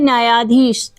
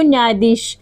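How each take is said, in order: First: It is said with a long aa after nyay. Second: It is said as nyay plus dheesh, no long vowel. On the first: The speaker calls it right. "ये होता है न्यायाधीश" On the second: The speaker calls it wrong. "आप बोलते हो ना तो क्या बोलते हो न्यायाधीश, न्यायाधीश ये इनकरेक्ट है"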